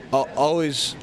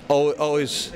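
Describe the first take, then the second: No difference in how they are said.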